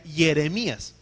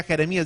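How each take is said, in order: First: Jeremías said as yeremías, with a y sound, not a j; Jeremías pronunciado con I: yeremías; Hebrew-style Jeremías. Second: Said in the usual way. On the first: Shown as a demonstration. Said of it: "con I". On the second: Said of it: "decía Jeremías, con I".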